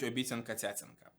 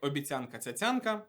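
First: The words carry a different, regional stress. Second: The words carry the widely known standard stress. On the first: This is a local way of saying the phrase. "на Покутті і на Дністрянщині наголошують" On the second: This is how the phrase is known across the country. "яку вся Україна знає як"

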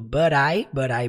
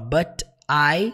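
First: The two words are linked together. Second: The two words are said separately. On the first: The speaker calls it right. "Você junta falando" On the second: The speaker calls it wrong. "você não fala but I"

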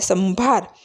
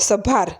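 First: The first syllable has a nasal sound. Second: The first syllable has no nasal sound. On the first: "અનુસ્વર છે એટલે સંભાર" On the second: "ટપકું ન હોય તો આપણે સભાર એમ વાંચીએ"

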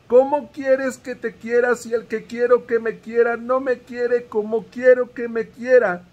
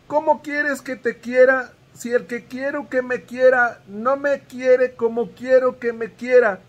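The two takes are said the same way.

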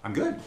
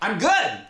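First: It is said at a normal speaking volume. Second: It is shouted loudly with high energy.

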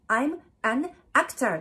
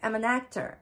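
First: Each word is said separately with breaks. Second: The words run together into one linked stream. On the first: The speaker calls it wrong. "全部切れてるでしょ？" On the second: The speaker calls it right. "リエゾンしないといけない。"

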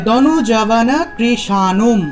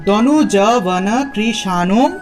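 The two takes are said the same way.

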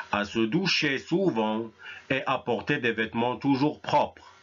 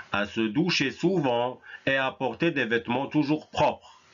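Both takes have the same delivery.

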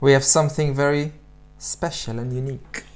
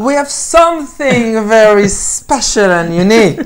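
First: It is read at a normal, quieter volume. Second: It is read at a louder volume.

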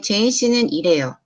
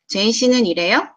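First: The voice falls at the end. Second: The voice rises at the end.

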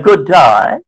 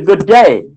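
First: The vowel in 'day' sounds like 'die'. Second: The vowel in 'day' sounds like 'day'. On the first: "the Australian English language where they pronounce die" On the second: "it should be good day"

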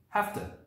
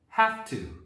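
First: The words are reduced and blended together. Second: Both words are said in full.

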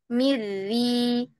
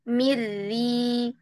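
Both takes have the same delivery.

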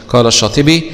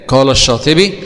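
Both takes have the same delivery.

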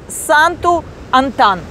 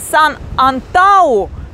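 First: The name is said as Santu-Antan. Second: The name is said as San-Antau. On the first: This is how the name should be said. The speaker calls it right. "а сегодня я должна говорить Санту-Антан" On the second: This is how the name was said before. The speaker calls it wrong. "я вчера говорила Сан-Антау"

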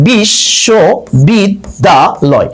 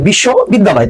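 First: The word is broken into five separate chunks. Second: The word is broken into two separate chunks. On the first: The speaker calls it right. "নিঃশ্বাসের স্বল্পতম প্রয়াসে পাঁচবার উচ্চারণ করা যাচ্ছে" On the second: The speaker calls it wrong. "তার logic থেকে দুই অক্ষর"

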